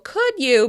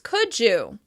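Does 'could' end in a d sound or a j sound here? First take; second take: d sound; j sound. First: The d is kept before 'you'. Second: The d and y blend into a j sound.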